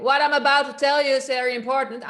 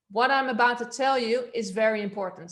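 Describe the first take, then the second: First: Loud, higher, fast shout. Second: Loud but controlled, without shouting; supported projection. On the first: Coach showing the class unsupported volume, shouting. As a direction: push it out as a quick shout. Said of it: "an example for shouting". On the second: Coach showing the class balanced volume, projected not shouted. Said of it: "So I'm using this". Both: Shown as a demonstration.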